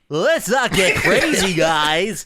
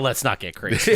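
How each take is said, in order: First: It is said in an impression of Bentley. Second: It is said in his normal voice.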